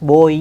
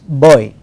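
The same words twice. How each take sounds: First: The vowel is one steady sound without gliding. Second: The vowel glides from one sound into another. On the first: The speaker calls it wrong. "Instead of the diphthong oi, we use pure vowels, boy like that" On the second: The speaker calls it right. "we have to use the diphthong here. It is boy"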